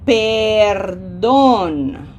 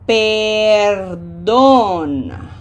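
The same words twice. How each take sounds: First: The first vowel is long and clear. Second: The first vowel is long and clear.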